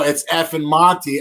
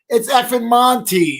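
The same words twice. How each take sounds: First: The tone sounds annoyed and irritated. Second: The tone sounds plain and friendly. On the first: The caller is an unwelcome interruption. The speaker calls it wrong. "It wasn't like I was like, hold on. Oh" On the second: The caller is a welcome friend. The speaker calls it right. "I was straight up like"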